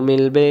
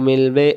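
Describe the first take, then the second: The two takes are said the same way.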